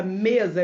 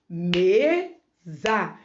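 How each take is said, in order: First: Said in the usual way. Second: "mesa" broken into me and za, each drawn out; slow, syllable by syllable. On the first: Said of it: "falando ela devagar". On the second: Shown as a demonstration. Teacher counting mouth openings in "mesa", slowly split by syllable. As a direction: say "mesa" slowly, pausing between its two syllables. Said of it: "você falando ela devagar".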